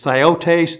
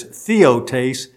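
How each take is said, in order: First: Theotes drawn out as THIGH-oh-tays; pronunciation of theotes. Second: Theotes drawn out as THEE-oh-tays; pronunciation of theotes. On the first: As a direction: slowly say "theotes" with a long "eye" first. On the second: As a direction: slowly say "theotes" with "ee" first. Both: Shown as a demonstration. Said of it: "those three different Greek words".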